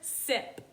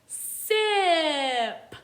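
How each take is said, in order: First: The word is said at a normal, quick pace. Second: The word is said slowly with stretched sounds.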